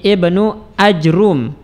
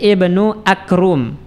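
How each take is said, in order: First: No vowel follows the j, and the r is single. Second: A k replaces the j, and no vowel follows it. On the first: "mensukun jim dan mendomah ra tanpa ditasydidkan" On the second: "jimnya kita ganti dengan huruf kaf"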